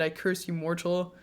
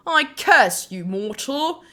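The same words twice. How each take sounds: First: Said in the usual way. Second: Mock British curse, higher and louder; heavy British accent. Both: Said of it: "And a heavy British accent".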